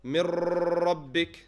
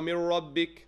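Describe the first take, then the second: First: The r sound is repeated several times. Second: The r sound is an English-style r. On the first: "this does not mean you repeat the ra" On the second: "make it an English ra"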